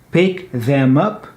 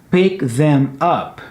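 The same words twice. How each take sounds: First: The word 'them' is said in full. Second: The word 'them' is said in full.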